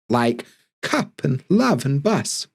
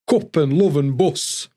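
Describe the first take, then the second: First: Cup has an open uh vowel. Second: Cup has a rounded oo-like vowel. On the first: This is the standard southern way. "We don't use uh, like cup and love and bus" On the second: This is how Sheffield speakers say it. "We say oh, cup and love and bus"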